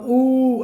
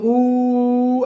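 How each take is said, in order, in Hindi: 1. स्वर लगभग दोगुनी देर तक बोला जाता है। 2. स्वर को बहुत लंबे समय तक खींचा जाता है। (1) "दीर्घ हो गया" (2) "प्लुत हो गया"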